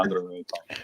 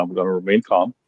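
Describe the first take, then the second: First: Softly, letting the anger go; calming down quietly. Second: Said in the usual way. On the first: Real, not acted. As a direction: talk yourself calm under your breath.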